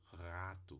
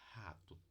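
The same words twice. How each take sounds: First: The r is made at the uvula. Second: The r is made in the throat. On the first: "um uvular é meio difícil de acontecer" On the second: "E temos a glotal"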